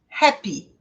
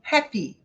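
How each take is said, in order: Both takes have the same delivery.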